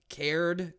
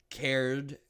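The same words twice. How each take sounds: First: Cared pushed higher and louder; emphatic repeat of cared; stress on cared. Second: Said in the usual way. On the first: Shown as a demonstration. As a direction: lean hard into the repeated cared.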